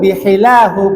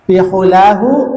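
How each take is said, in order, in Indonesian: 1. Vokal setelah b itu i. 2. Vokal setelah b itu u. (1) "bihilahu boleh" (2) "Boleh bihulahu"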